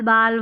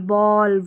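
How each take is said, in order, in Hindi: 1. स्वर खुला 'aa' ध्वनि है। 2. स्वर गोलाकार 'aw' ध्वनि है। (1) "नहीं पढ़ेंगे" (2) "ए को औ पढ़ेंगे"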